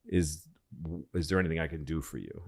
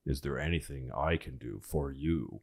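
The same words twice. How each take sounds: First: Said in the usual way. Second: "I" leaned on, soft and low; stress on I. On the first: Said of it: "And he said". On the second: Retold or imitated. Eleanor answering the new President, soft stress on "I". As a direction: softly turn the offer back, weighting "I". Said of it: "And she says".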